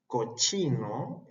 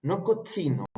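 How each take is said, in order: First: Cochino slowed, with a long heavy ch; dragged-out cochino. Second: Said in the usual way. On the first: Shown as a demonstration. Teacher exaggerating the ch in cochino. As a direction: stretch the ch in cochino.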